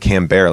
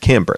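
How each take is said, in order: First: The name ends with a 'bear' sound. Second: The name ends with a 'bert' sound. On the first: The speaker calls it wrong. "like cheese" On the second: The speaker calls it right. "like Q-Bert"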